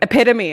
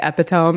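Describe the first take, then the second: First: The word is said the standard way. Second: The word is said as it is spelled. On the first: Friends correct the speaker's version. The speaker calls it right. "and they're like, epitome" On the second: The speaker learned the word by reading it. The speaker calls it wrong. "I always say epitome"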